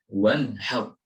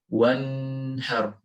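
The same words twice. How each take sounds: First: The n is clear with no nasal hum. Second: The n is held with a nasal hum. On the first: The speaker calls it right. "Yang yang benar adalah membaca dengan jelas dan tanpa tanpa dengung" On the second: The speaker calls it wrong. "terkadang ada dengung yang diikuti one har. Nah di sana kurang tepat atau salah"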